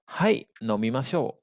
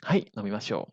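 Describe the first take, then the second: First: Slow, spaced-out language-lesson delivery; slow model answer. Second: Said in the usual way. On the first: Shown as a demonstration. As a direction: model the reply slowly for learners. Teacher models answer slowly first. (ucapkan jawaban perlahan untuk murid)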